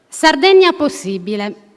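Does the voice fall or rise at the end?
fall. The phrase ends with a falling statement tune. It is stated as a confident claim. "pronunciare questa frase senza il punto interrogativo"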